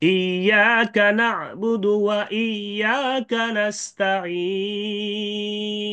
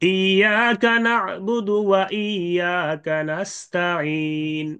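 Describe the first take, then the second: First: The final long vowel is held three counts. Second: The final long vowel is held one count. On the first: "তিন আলিফের সাথে Ismam" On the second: "এক আলিফের সাথে ইসমাম"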